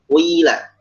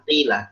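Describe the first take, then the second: First: The first vowel is rounded toward a u sound. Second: The first vowel is a plain i. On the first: This is another reading. "Ya yang diismamkan dengan bunyi waw" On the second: This is the usual reading. "bukan tila"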